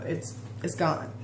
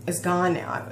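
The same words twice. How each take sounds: First: Softer, whispered, trailing off; fading to a whisper. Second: Said in the usual way. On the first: Real, not acted. To viewers, letting the old hurt go, whispered. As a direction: breathe the words out as it lets go.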